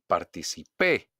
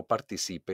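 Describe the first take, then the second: First: "Participé" punched on the last PÉ; stress on final PÉ. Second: "participe" with weight on CI; stress on CI. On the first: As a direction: land hard on PÉ in "Participé". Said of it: "hago un golpe de voz". ("Participé" con golpe de voz en PÉ) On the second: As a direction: lean on CI in "participe". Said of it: "escucha a tu profesor leer estas oraciones". ("participe" acentuado en CI) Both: Shown as a demonstration.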